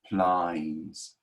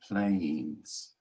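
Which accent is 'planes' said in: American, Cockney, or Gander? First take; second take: Cockney; American. First: The vowel opens toward an 'eye' sound. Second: The vowel glides from 'ay' toward 'ee'. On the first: "Cockney accents ... they would say plines" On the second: "instead of an American saying planes"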